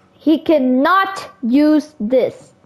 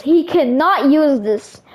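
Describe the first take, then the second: First: Cannot slow and firm; He cannot use this, each word slowed; stress on cannot. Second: Said in the usual way. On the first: Shown as a demonstration.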